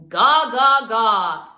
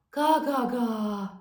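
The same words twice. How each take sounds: First: Louder ga ga ga with a hard punch; punchy ga. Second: Weak ga. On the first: Coach shows the right, punchy chest ga. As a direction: punch each ga into the air. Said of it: "add a little punch". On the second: Coach shows students how ga should not sound. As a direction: barely push the ga. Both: Shown as a demonstration.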